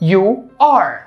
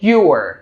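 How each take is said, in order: First: Two separate words, you and are. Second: Merged into one short syllable, you're.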